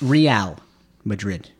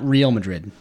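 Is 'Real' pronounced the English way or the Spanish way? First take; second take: Spanish; English. First: Real is said the Spanish way. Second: Real is said like the English word real. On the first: The speaker calls it right. "but Real Madrid" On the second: The speaker calls it wrong. "not Real Madrid, not fake Madrid"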